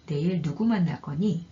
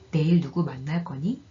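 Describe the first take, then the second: First: It has wh-question intonation. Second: It has yes-no question intonation. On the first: Asks who you will meet tomorrow. "두 번째 의문, 억양은 의문사 의문문에 쓰이는다는" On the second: Asks whether you will meet someone tomorrow. "첫 번째 억양은 예, 아니요 의문문"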